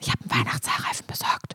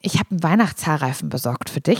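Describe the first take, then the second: First: It is spoken in a whisper. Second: It is spoken in a normal voice.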